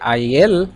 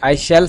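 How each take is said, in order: First: Shall is reduced to an attached l sound. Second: The full word shall is said separately.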